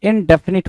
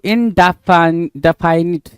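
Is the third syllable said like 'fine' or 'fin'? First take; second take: fin; fine. First: The third syllable sounds like 'fin'. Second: The third syllable sounds like 'fine'. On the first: The speaker calls it right. "इनडेफिनिट होता है" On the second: The speaker calls it wrong. "इनडेफाइनिट कुछ नहीं होता भाई"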